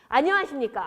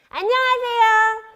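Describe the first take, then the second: First: A round, full voice produced from the belly. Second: A thinner voice produced from the throat.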